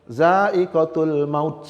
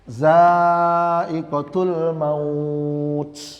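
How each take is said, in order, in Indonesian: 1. Vokal pada kata terakhir dibaca pendek. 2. Vokal pada kata terakhir dibaca panjang. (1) "Tidak boleh dibaca begini" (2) "ini harus dibaca mat"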